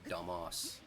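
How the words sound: It is said with a British vowel. "And we go"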